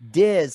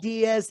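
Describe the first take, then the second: First: The name is pronounced as Diz. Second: The name is pronounced as Diaz. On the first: The speaker calls it right. "it's Jacob Diz" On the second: The speaker calls it wrong. "Don't say"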